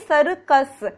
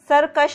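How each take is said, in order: First: The word ends with an s sound. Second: The word ends with an sh sound. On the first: The speaker calls it right. "दोनों जगह स का ही उच्चारण है" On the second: The speaker calls it wrong. "सरकश नहीं है"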